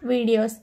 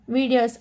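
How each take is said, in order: Both takes have the same delivery.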